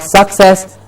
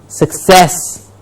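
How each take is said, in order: First: The stress is on the first syllable. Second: The stress is on the second syllable. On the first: The speaker calls it wrong. "not suck" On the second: The speaker calls it right. "The cess should be highlighted"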